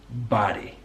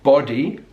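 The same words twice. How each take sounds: First: The vowel is an open American 'ah' sound. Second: The vowel is a rounded British 'oh' sound. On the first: "So that's his American English" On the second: "not body"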